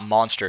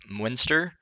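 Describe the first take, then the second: First: The first vowel sounds like the 'o' in 'on'. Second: The first vowel sounds like the 'u' in 'up'. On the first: The speaker calls it wrong. "It's not Monster" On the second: The speaker calls it right. "it's Munster"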